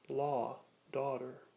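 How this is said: The words are said in a North American accent. "in North American style accents"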